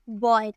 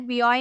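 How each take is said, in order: First: The word is blended into a single syllable. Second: The letter name is said, then the rest. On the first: The speaker calls it right. "हमें पढ़ना है बॉय" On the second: The speaker calls it wrong. "बी ऑय नहीं पढ़ना है"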